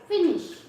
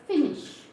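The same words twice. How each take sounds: The two takes are said the same way.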